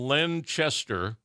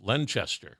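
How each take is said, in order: First: The name is said slowly as two words. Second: The name is said fast as one word. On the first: It is a person's first and last name. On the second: It sounds like the name of a town.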